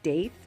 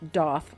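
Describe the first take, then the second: First: The vowel does not rhyme with goth. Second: The vowel rhymes with goth. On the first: The speaker calls it wrong. "you may pronounce it Daith" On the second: The speaker calls it right. "but it is pronounced Doth, like goth"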